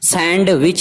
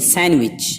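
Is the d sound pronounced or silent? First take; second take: pronounced; silent. First: The d sound is pronounced after the n. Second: The d sound is silent after the n. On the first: The speaker calls it wrong. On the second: The speaker calls it right.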